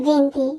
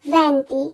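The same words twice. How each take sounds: First: "ভেন্তি" with narrow first vowel, vein-ti; wrong venti vowel. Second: "ভেন্তি" with open first vowel, ven-ti; correct open e. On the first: Teacher showing a frequent mistake, narrow-e "ভেন্তি". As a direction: close up the e in "ভেন্তি". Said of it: "এটি আসলে ভুল উচ্চারণ". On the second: Teacher correcting twenty, open-e "ভেন্তি". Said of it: "আমরা উচ্চারণ করব". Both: Shown as a demonstration.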